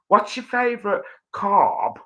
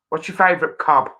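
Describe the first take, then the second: First: It is said in a put-on posh accent. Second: It is said in an everyday regional accent. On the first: "if I was posh, it would be" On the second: "Just listen"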